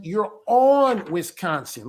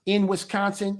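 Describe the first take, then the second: First: On drawn out and leaned on; slow, hit the word on hard; stress on ON. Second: Said in the usual way. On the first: Shown as a demonstration. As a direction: stress the preposition on, slowly. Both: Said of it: "you're not in".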